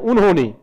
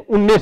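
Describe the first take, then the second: First: The word is said in its full form. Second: The word is shortened by dropping sounds. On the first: "शब्द है उन्होंने" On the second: "उन्होंने से उन्ने शब्द बनता है"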